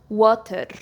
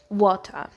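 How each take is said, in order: First: The word is said in a Scottish accent. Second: The word is said in a British accent. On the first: "in the Scottish accent, people say water" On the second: "in the British accent, people say water"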